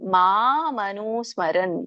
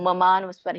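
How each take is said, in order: First: The first vowel is long. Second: The first vowel is short. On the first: The speaker calls it right. "ಮಾ ಇದೆ" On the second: The speaker calls it wrong. "ನೀವು ಮಮಾನುಸ್ಮರ ಹೀಗೆ ಹೇಳ್ತೀರಾ"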